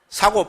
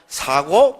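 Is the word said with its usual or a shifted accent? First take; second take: usual; shifted. First: It is said with the usual accent pattern. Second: It is said with a slightly shifted accent. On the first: It means buying. "사고, 팔고가 아니고" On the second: It means the four kinds of suffering. "악센트를 살짝 바꾸면"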